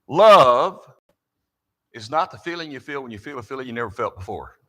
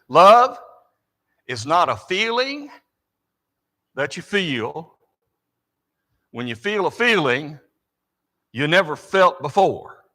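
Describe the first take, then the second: First: It is said at a quick pace. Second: It is said at a slow pace.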